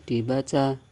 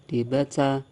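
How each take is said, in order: Both takes have the same delivery.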